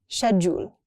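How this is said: It is said with a British pronunciation. "In U K, people say"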